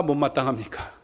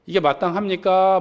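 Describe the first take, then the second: First: 못 hit hard, the rest falling and softer; stress on 못. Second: 마땅합니까 lifted and pressed as the question's peak; stress on 마땅. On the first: Pastor asks the congregation the opposite question, leaning on 못. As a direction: drop into 못 마땅합니까, leaning on 못. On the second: Pastor asks the congregation whether it is right, pressing 마땅합니까. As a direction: ask 이게 마땅합니까 with weight on 마땅합니까. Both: Shown as a demonstration.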